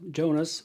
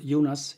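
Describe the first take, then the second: First: The name is given an English pronunciation. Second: The name is given a Swedish pronunciation.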